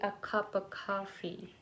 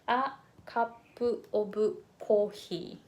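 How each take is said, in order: First: It is said with American English vowels. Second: It is said with full Japanese-style vowels. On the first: The speaker calls it right. "in American way, it would be" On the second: The speaker calls it wrong. "as a Japanese speaker, I used to pronounce this one as"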